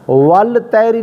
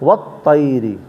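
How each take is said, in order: First: The L is pronounced before the T. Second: The L merges into a doubled T. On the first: The speaker calls it wrong. "वल तैरी नहीं पढ़ा जे" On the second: The speaker calls it right. "बल्कि वत तैरी को पढ़ांदो"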